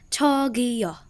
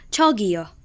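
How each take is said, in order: First: The word is split into separate syllables. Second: The word is said smoothly as one unit. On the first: "And in syllables" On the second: "I repeat"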